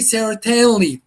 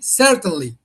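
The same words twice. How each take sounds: First: The stress is on the second syllable. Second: The stress is on the first syllable. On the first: The speaker calls it wrong. "We do not say certainly" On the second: The speaker calls it right. "We say certainly"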